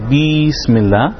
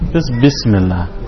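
First: The vowel after the B is drawn out long. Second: The vowel after the B is kept short. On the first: The speaker calls it wrong. "you don't want to say Bismillah" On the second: The speaker calls it right.

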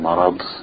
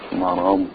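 First: The final consonant is pressed hard and strong. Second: The final consonant is soft with little pressure. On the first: The speaker calls it wrong. "when people try to pronounce the dot strongly, it becomes a dan" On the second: The speaker calls it right. "Just keep it soft, less pressure"

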